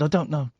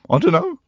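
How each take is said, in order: First: The voice stays high and steady without cracking. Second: The voice cracks like a breaking teenage voice. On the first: The speaker calls it right. "I was up there. There's no, there's no teenage uh, warblings going on" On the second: The speaker calls it wrong. "I don't know why I'm doing a voice breaking"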